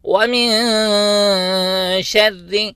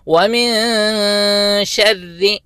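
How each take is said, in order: The two takes are said the same way.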